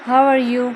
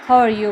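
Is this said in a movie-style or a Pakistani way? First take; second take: Pakistani; movie-style. First: It is said in a Pakistani English way. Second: It is said in a modern movie-style way. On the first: "ये पाकिस्तान में बोला जाता है" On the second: "modern English है या फिर movies वगैरह में"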